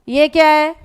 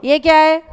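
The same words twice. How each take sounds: The two takes are said the same way.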